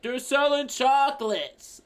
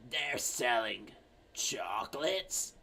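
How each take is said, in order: First: High, slow raised voice; exasperated yell. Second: Put-on soft, low, slow old-lady question. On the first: Acted. Daughter yelling to mom who can't hear, high slow shout. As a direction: spell it out loudly for a deaf mother. Daughter yells to deaf mother. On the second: Old lady finally hearing her daughter, slow soft old voice. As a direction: echo it quietly, drawing out each word. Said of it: "the very old lady comes in".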